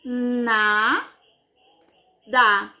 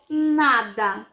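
First: "Na, da" with a long gap between syllables; drawn-out "Na", pause, then lower "da". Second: Said in the usual way. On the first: Shown as a demonstration. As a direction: break "Na, da" into two separate syllables. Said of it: "quantas vezes a nossa boca abre". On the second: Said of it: "Vamos ver".

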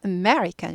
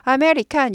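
First: American as uh-MER-ikan, rising then falling; big stress on me in American; strongly accented me. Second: American in even Korean syllables, a-me-ri-kan; full vowels throughout American, no accent; unaccented American. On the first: Teacher correcting the mistake, strongly stressed American. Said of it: "굴곡이 많아야 됩니다". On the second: Teacher imitating learners' mistake, unaccented American. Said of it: "이러시니까 못 알아들어요". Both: Shown as a demonstration.

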